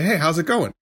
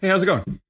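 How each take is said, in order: First: It sounds sincere and caring. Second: It sounds casual and superficial.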